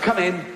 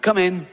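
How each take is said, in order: First: High laughing come in; mock doctor, laughing through it; doctor voice again. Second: High call of come in; mock doctor calling through the door; higher sing-song come in. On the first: Comedian repeats doctor quote. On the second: Comedian acts doctor in anecdote.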